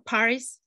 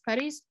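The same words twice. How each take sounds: First: The name is pronounced the English way. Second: The name is pronounced the Yiddish way. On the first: The speaker calls it right. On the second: The speaker calls it wrong.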